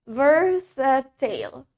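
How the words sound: It is said in a British accent. "That's in British accent"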